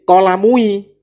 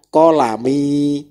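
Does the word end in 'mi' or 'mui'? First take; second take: mui; mi. First: The word ends with the sounds 'mui'. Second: The word ends with the sound 'mi'. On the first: The speaker calls it wrong. "Tidak boleh kolamui" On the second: The speaker calls it right. "yang betul adalah kolami"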